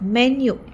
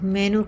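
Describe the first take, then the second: First: The word ends with a 'nyoo' sound. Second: The word ends with a plain 'noo' sound. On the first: The speaker calls it right. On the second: The speaker calls it wrong.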